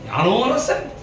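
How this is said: The first word is said as one joined word. It asks whether the speaker is a king. The speaker calls it right. "யான் நோ அரசன் அல்ல, யானோ அரசன்"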